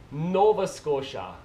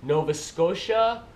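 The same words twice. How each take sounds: First: Slow "Nova Scotia", weight on NOVA, falling; Canadian accent, draw out "Nova" and drop "Scotia"; practising Canadian accent. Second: Slow "Nova Scotia", weight on SCOTIA; Canadian accent, draw out "Nova Scotia", leaning on "Scotia"; practising Canadian accent. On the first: Vlogger practising "Nova Scotia", slow falling Canadian accent. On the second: Vlogger practising "Nova Scotia", slow Canadian accent. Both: Shown as a demonstration. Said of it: "I'll practice".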